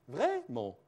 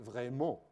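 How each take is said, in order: First: The high pitch peak is pushed further up. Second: The pitch is pushed down at the end. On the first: "Je peux monter le haut" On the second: "Si le bout de la fin, je le descends"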